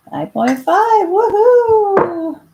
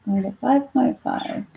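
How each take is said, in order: First: High, loud happy whoop; excited cheer. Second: Said in the usual way. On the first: Real, not acted. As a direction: cheer at hitting the number. Reaching the target reading.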